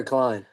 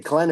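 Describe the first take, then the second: First: "Klein" rhyming with "line"; confirmed pronunciation. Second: "Klein" with a short "eh" vowel, like "Klen"; alternate pronunciation. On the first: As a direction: say "Klein" with a long "eye" vowel. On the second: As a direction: say "Klein" as "Klen", not rhyming with "line". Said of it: "Is it Klein or Klein?". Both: Shown as a demonstration.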